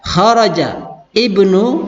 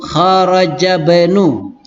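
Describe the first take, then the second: First: The words are said separately, with the i sounded. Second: The words are joined, with the i dropped. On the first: "bisa saya baca kharaja ibnu" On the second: "kalau saya baca langsung kharaja bunu"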